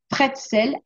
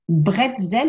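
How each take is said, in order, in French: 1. Le mot commence par un son P. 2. Le mot commence par un son B. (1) "certains disent pretzel avec un P" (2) "avec un B"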